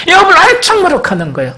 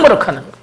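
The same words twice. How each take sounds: First: 요업을 hit high and fast, the whole line pushed out; stressed repeat of 요업을 엄청 머쓱하는 거예요; emphatic repeat. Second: Said in the usual way. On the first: Acted. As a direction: say it again, higher, faster and with more force.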